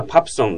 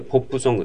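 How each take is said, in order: First: "パプソン" with an a-like first vowel; "パプソン" as Korean renders pop song; Korean-style pronunciation. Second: "ポップソング" read by its spelling with an o; "ポップソング" with a spelled-out o vowel; Japanese romaji pronunciation. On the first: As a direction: say "パプソン" the Korean way, pap-son. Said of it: "英語のハングル表記のことですけども". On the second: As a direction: say "ポップソング" the Japanese way, poppu-songu. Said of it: "ローマ字と解釈して発音する". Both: Shown as a demonstration.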